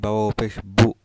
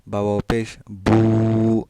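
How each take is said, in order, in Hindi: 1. अंतिम स्वर छोटा और झटके से बोला जाता है। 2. अंतिम स्वर थोड़ा खींचकर लंबा बोला जाता है। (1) "ऐसा नहीं पढ़ेंगे" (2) "थोड़ा खींच कर पढ़ेंगे... लाइक दिस"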